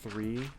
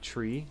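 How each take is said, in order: First: The word begins with a soft 'th' sound. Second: The word begins with a hard 't' sound. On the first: The speaker calls it right. "instead of tr three" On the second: The speaker calls it wrong. "they say tree"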